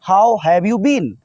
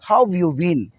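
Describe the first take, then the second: First: The word 'have' is said in full. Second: The word 'have' is shortened almost away. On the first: The speaker calls it wrong. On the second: The speaker calls it right.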